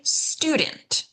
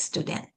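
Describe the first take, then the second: First: "student" as STU-dent; English STU-dent, second syllable light; first-syllable stress. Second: "student" as stu-DENT; "student" with the weight on the last syllable; Hebrew-style stress. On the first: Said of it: "stress that first syllable". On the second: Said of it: "Whereas in Hebrew". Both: Shown as a demonstration.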